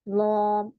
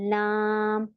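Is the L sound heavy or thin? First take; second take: heavy; thin. First: The L is heavy with a thick, rounded vowel. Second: The L is thin with a flat, light vowel. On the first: The speaker calls it wrong. "लॉम ऐसे नहीं पढ़ना" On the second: The speaker calls it right. "आवाज फ्लैट जाती है, मोटी नहीं पढ़ेंगे हम इसे"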